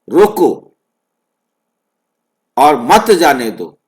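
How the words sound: The pause comes right after 'roko'.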